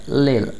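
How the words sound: The t sound is dropped. "British accent में"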